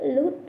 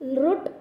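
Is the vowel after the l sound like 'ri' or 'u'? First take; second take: u; ri. First: The vowel after l sounds like 'u'. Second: The vowel after l sounds like 'ri'. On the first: The speaker calls it right. "लु हा स्वर आहे, त्यामुळे लुट लकार" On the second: The speaker calls it wrong. "लृट असा उच्चार करायचा नाही"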